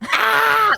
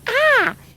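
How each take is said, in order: First: It is a guttural, death-metal-style scream. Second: It is a plain, ordinary scream.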